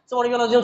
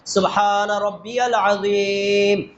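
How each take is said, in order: First: It is said quickly and hurriedly. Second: It is said slowly and calmly.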